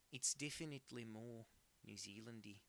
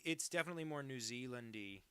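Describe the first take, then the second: First: Put-on Kiwi accent; New Zealand accent. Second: Said in the usual way. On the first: Shown as a demonstration. Streamer conceding to chat, in a put-on New Zealand accent. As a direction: repeat it as a New Zealander would.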